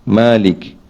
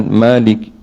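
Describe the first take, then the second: Both takes have the same delivery.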